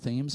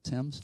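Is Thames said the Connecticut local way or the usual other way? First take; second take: Connecticut; other. First: The river name is said the local Connecticut way. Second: The river name is said the usual non-local way. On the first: This is how locals say it. The speaker calls it right. "They pronounce it Thames in Connecticut" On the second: This is not how locals say it. The speaker calls it wrong. "not Thames"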